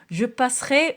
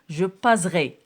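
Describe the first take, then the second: First: The middle consonant is an s sound. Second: The middle consonant is a z sound. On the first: The speaker calls it right. "il faut mettre deux S" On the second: The speaker calls it wrong. "Si je ne mets pas deux S, je vais lire"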